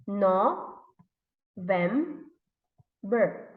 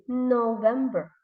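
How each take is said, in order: First: "No, vem, ber" in three separate beats; long pauses between "No", "vem" and "ber"; syllable by syllable. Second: Said in the usual way. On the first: Shown as a demonstration. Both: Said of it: "how many syllables are there".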